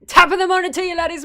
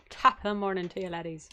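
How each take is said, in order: First: Loud, high mock-Scottish greeting; hammed-up Irish-turned-Scottish accent; Scottish-leaning accent. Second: Understated try at an Irish greeting; tentative Irish accent. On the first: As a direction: belt out a Scottish-tinged intro. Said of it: "That was more Scottish". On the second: Shown as a demonstration. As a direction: test the Irish accent under your breath. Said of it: "eventually do an Irish accent".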